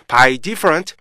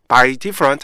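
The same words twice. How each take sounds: Both takes have the same delivery.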